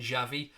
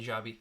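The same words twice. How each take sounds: First: "Xavi" with a v sound in the middle; mistaken-sounding Xavi. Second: "Xabi" with a b sound in the middle; intended Xabi. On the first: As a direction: say "Xavi" with a clear v, as misheard. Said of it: "might make it sound like I was saying Xavi". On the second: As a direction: say "Xabi" with a b, not a v. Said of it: "I was saying Xabi". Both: Shown as a demonstration.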